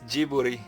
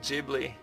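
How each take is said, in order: First: The name is said with a Japanese pronunciation. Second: The name is said with an English pronunciation. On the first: The speaker calls it right. "it's Jiburi" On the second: The speaker calls it wrong. "It's not Ghibli"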